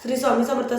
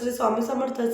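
Both takes have the same delivery.

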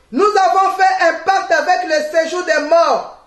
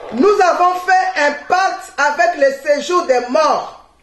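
The two takes are said the same way.

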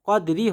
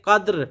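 First: The word ends with a short vowel 'i'. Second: The word ends on the consonant 'r'. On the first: The speaker calls it wrong. "কদরি হবে না" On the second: The speaker calls it right. "এজন্য হবে কদ্র"

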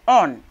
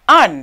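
First: The word is pronounced like 'on'. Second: The word is pronounced like 'an'. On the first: The speaker calls it wrong. "Sometimes people pronounce it as on. But for me, it's not really the right pronunciation" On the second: The speaker calls it right. "Use the preposition an"

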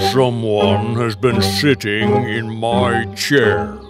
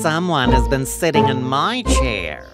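First: It is said in a great big voice. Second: It is said in a middle-sized voice.

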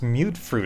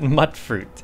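First: The first vowel sounds like the one in cute. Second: The first vowel sounds like the one in cut. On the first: "It's pronounced mute fruit" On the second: "I always pronounce it mutt fruit"

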